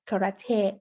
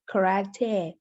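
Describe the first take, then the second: First: It is said with a British accent. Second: The same.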